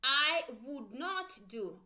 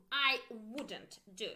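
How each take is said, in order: First: Slow, louder "I would not do", each word separate; slow full form. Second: Slow "I wouldn't do", contraction said clearly. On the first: Teacher drilling the uncontracted negative slowly. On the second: Teacher drilling the contracted negative slowly. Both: Shown as a demonstration. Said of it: "Make sure you pronounce with me".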